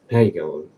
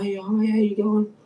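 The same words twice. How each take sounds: First: Stiff, forced how you going, a little lower; grudging, obligatory hello; mild imitation of a forced greeting. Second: Much higher, bright imitation of a chirpy friendly man; hammed-up friendly shopkeeper greeting. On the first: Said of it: "like it was forced or something". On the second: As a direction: mimic his cheery hello. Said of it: "he was real friendly with me".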